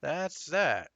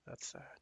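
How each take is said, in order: First: That's that, louder and higher with a firm falling close; a firm, louder restatement; emphatic. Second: "that's that" mumbled low and soft; a soft throwaway close; trailing off. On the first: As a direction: say "That's that" with finality. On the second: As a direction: let it fade under your breath. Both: Shown as a demonstration.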